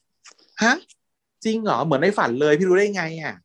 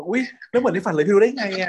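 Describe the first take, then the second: First: High, eager gasp of delight; thrilled like a child handed a new toy; excited like a kid. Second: High, squealing delight on อุ๊ย; mock childlike excitement. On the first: Retold or imitated. Ton hears the day of his death, answers like an excited kid. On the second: Host redoes Ton's line as a giddy excited kid. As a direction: ham up the kid-with-a-toy thrill. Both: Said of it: "ทำเสียงแบบตื่นเต้นเหมือนเด็กได้ของเล่นนะ".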